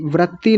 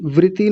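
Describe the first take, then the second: First: वृत्ति said as व्रति, no doubled t; wrong short vrati. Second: वृत्ति with a doubled त्त; correct double t. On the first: Retold or imitated. Teacher imitates students' error in वृत्ति. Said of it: "वृत्ति नहीं वृत्ति". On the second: Shown as a demonstration. Teacher corrects students, वृत्ति with double t. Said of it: "वृत्ति दो ता हैं।".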